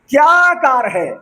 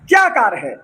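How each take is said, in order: First: It is said in an admiring, praising tone. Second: It is said in a mocking, scornful tone. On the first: The car is being praised. "वो तारीफ वाला लहजा है" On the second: The car is being ridiculed. "पहले वाला जो लफ्ज था वो मजम्मत के तौर पर था, वो तजहीक के तौर पर था"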